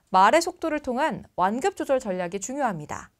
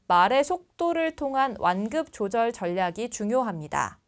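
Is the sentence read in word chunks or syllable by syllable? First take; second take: word chunks; syllable by syllable. First: Words are grouped together into smooth chunks. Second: Each syllable is read separately, one by one. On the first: The speaker calls it right. "단어는 덩어리로" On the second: The speaker calls it wrong. "이렇게 한 글자씩 읽으면 책 읽는 느낌이 납니다"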